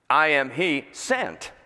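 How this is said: The word 'sent' is stressed. The speaker has been sent by Him. "so there's a number of ways you can emphasize that"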